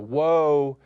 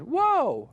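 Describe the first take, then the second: First: It is said at a normal, lower pitch. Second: It is said at a high pitch.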